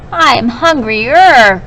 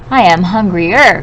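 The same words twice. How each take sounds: First: Slow, louder whiny complaint; teacher shows the whiny hungry goat, slow and louder; whiny and crying. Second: A touch of whining, a bit louder; hungry middle goat, lightly whiny; whiny cry. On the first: Shown as a demonstration. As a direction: drag it out like a hungry whining kid. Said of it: "I sort of made my voice whiny and cryy". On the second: A narrator's reading. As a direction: mildly whine about being hungry.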